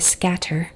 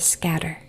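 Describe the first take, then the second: First: The middle consonant is a crisp, released T. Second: The middle consonant is a quick D-like tap. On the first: The speaker calls it wrong. "we don't usually say scatter" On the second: The speaker calls it right. "we say scatter. So the T turns into more of a stop sound"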